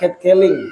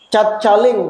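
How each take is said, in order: First: It is pronounced with an English accent. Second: It is read out letter by letter, locally. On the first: "Kalau bahasa Inggrisnya cara membacanya" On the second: "kalau dibaca"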